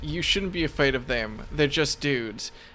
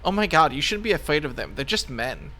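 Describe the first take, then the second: First: It is said in a plain, ordinary voice. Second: It is said in a put-on Valley Girl voice.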